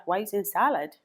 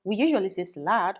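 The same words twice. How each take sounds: First: "salad" stressed on the first syllable, SAL-ud. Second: "salad" stressed on the second syllable, suh-LAD; wrong-syllable stress. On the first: Local people querying the learner's way, first-syllable stress on "salad". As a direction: question the word, hitting the start of "salad". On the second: Local people objecting to the learner, second-syllable stress on "salad". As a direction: put the weight on the end of "salad". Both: Retold or imitated. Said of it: "because they're like".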